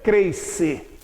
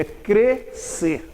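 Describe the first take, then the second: First: Crescer with a diphthong, "creis-cer"; mispronounced crescer. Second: Crescer slowly, pure e, "crê-cer"; correct crescer. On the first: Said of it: "Cuidado pra não dizer crescer". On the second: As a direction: split crescer into two slow syllables, no i glide. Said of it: "Cuidado pra não dizer crescer. É crescer". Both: Shown as a demonstration.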